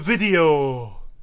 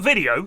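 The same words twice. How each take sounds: First: The vowels are long, in a northern accent. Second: The vowels are short, in a plain accent. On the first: "it's like such a long vowel sound" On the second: "Not video"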